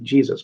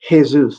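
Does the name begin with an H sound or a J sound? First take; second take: J sound; H sound. First: The name begins with a J sound. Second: The name begins with an H sound. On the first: This is how English speakers say it. "instead of Jesus" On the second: This is how Spanish speakers say it. "the Spanish people saying Jesus ... because they pronounce the J with a H"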